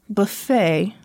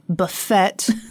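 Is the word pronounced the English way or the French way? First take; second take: French; English. First: It is pronounced the French way. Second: It is pronounced the English way. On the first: The speaker calls it right. "That it's buffet" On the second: The speaker calls it wrong. "not buffet"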